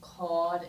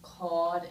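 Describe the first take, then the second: First: The R before the D is dropped. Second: The same.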